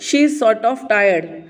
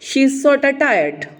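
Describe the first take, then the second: First: 'Sort of' is said fully as two words. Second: 'Sort of' is run together as 'sorta'. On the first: "हम लोग बोलेंगे" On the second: "native English speakers की तरह"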